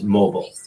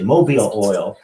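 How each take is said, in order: First: The stress is on the first syllable. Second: The stress is on the second syllable. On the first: "causes a reader to pause on it and focus on it" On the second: "like Mobile, Alabama"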